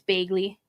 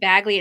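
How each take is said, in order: First: The vowel has a Minnesota regional accent. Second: The vowel sounds standard, without a regional accent. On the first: "it's Bagley" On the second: "instead of Bagley"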